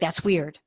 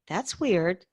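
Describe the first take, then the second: First: It is said in a put-off, dismissive tone. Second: It is said in a curious, interested tone. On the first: The thing seems strange and unwelcome. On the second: The thing seems unfamiliar and worth exploring.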